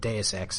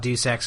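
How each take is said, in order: First: The first word is not said like 'deuce'. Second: The first word sounds like 'deuce'. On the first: This is how the speaker says it now. "switched to calling it Deus Ex eventually" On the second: This is the older way the speaker said it. "I used to call it Deuce Ex"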